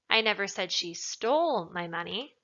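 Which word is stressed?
stole. The word 'stole' is emphasized. She took it but did not necessarily steal it. "Implies that maybe she took it, but she didn't steal it necessarily"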